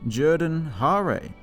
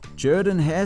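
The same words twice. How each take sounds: First: The name is said as it looks spelled. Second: The name is said the local way. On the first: "I look at that name and I think Jordan-Hare" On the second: "I pronounced it the proper way this time"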